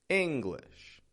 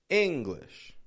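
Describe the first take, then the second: First: A strong first syllable, then a weak one. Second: The same.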